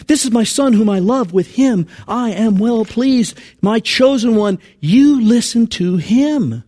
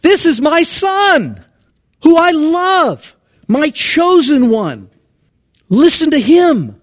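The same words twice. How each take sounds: First: God's voice, quoted. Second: High, slow, booming and loud divine pronouncement; God's voice with inflection. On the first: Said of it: "The voice comes". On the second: Preacher voicing God from the cloud, high slow booming proclamation. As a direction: proclaim each phrase like a voice from heaven. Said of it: "I wanna do inflections". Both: Shown as a demonstration.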